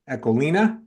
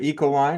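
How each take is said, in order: First: It is said with a Dutch pronunciation. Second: It is said with an American pronunciation. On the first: This is how it is said in its home country. "as the Dutch pronounce it" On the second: This is how it is said locally in the US. "as we say it here in the U S"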